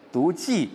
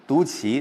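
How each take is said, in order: First: 骑 said as jì, with falling tone; 骑 read jì. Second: 骑 said as qí, with rising tone; 骑 read qí. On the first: Teacher allowing the old reading, 骑 pronounced jì. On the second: Teacher allowing the common reading too, 骑 pronounced qí. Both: Shown as a demonstration. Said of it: "读骑都可以".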